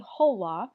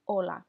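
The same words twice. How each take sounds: First: Hola with a sounded h, HO-la; wrong way. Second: Hola with a silent h, just O-la; right way. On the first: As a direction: breathe out an English h at the start of hola. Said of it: "So you do not say hola". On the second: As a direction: drop the h: hola starts straight on the O. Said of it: "you just say hola". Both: Shown as a demonstration.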